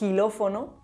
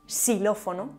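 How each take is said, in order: First: The word begins with a rough jota sound. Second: The word begins with an s sound. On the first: "como j" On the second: "además de como x o s"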